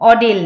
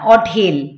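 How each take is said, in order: First: The middle d-sound is plain, without breath. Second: The middle d-sound is aspirated, with breath. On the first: The speaker calls it wrong. "ঢ অডেল না" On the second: The speaker calls it right. "না অঢেল"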